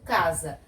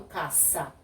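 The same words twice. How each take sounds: First: "casa" with a voiced z; pronúncia com Z. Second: "caça" with an unvoiced s; pronúncia com S. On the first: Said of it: "eu falo casa". ("casa" com som de Z) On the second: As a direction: say "caça" as ca-ssa. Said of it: "Eu não falo caça". ("caça" com som de S) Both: Shown as a demonstration.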